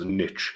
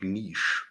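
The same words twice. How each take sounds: First: The word is given its American pronunciation. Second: The word is given its French pronunciation. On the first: "why do Americans pronounce niche as niche?" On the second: "it's a French word, so pronounce it niche"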